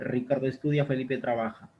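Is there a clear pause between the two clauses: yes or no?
no. It is read without a pause between clauses.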